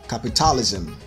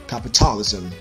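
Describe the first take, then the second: No difference in how they are said.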